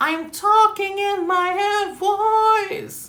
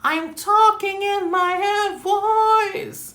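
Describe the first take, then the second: First: It is spoken in a clear head voice. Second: It is spoken in a clear head voice.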